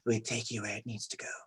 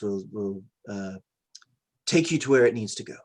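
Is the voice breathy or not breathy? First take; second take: breathy; not breathy. First: The voice is breathy. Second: The voice is not breathy.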